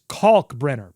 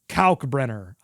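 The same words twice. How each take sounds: First: The first syllable sounds like caulk. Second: The first syllable does not sound like caulk. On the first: The speaker calls it right. "he says it's Kalkbrenner, pronounced caulk" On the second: The speaker calls it wrong. "I've been saying"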